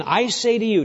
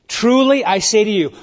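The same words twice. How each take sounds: First: Said in the usual way. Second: TRULY punched loud and high; with emphasis. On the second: Shown as a demonstration. Preacher quoting Jesus, stressing Truly with emphasis. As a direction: hit Truly hard, then I say to you. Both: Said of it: "with emphasis".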